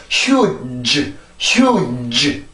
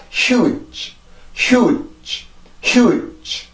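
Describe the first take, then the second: First: Huge with a long voiced "juh" tacked on; wrong drawn-out ending. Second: Huge closed with a brief voiceless release, no vowel; short soft ending. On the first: Teacher shows what to avoid, huge with drawn-out ending. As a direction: drag out the final consonant of huge into a syllable. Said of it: "이런 소리가 아니라". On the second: Teacher models the right way, huge with short soft ending. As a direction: stop the tongue, let huge end on leftover breath. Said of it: "이렇게 해서 소리가 만들어지게". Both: Shown as a demonstration.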